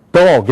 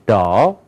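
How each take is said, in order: First: Dog as Korean 도그; Korean-accented dog. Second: Dog with a long open vowel; dog as one stressed English syllable; English pronunciation. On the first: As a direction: say dog with Korean vowel and sharp ending. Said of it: "이런 거 없어요". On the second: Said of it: "뭐야". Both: Shown as a demonstration.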